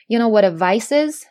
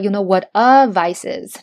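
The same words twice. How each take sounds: First: The article 'a' is said weakly, without stress. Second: The article 'a' is said strongly, with stress. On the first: The speaker calls it right. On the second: The speaker calls it wrong.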